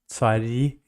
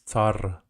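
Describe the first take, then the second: First: The final r sound is soft, palatalized. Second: The final r sound is hard, not palatalized. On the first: This is the Russian form. "like Russian, it's soft" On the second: This is the Ukrainian form. "And in Ukrainian, it's tsar"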